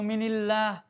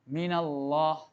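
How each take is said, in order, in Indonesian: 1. Huruf n diikuti vokal i. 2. Huruf n diikuti vokal a. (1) "Tidak boleh kita baca" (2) "harus diberi harokat fat, fathah selamanya"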